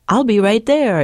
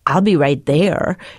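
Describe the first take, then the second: First: It is said in a cheerful, chipper tone. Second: It is said in a grumpy, unenthusiastic tone.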